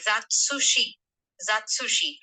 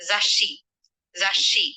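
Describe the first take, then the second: First: Zatsushi with a full su syllable. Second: Zashi with a held stop before shi; doubled consonant. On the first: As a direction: sound every beat of zatsushi. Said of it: "the su is not small". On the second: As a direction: pause on the double sound in zashi. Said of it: "the second word would be read". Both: Shown as a demonstration.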